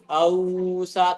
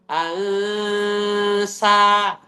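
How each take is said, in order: First: The nasal is pronounced thick and dark. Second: The nasal is pronounced thin and light. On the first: The speaker calls it wrong. "jangan ausa" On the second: The speaker calls it right. "nun sukunnya jadi ti tipis"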